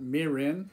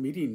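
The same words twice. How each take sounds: First: It is said with American pronunciation. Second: It is said with Japanese pronunciation. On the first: The speaker calls it wrong. "not mirin" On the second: The speaker calls it right. "This is called mirin"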